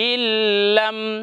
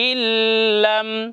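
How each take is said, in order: Both takes have the same delivery.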